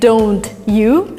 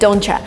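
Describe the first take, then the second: First: The t and y sounds stay separate. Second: The t and y sounds blend together. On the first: "instead of saying don't you" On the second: "Americans say don't ya"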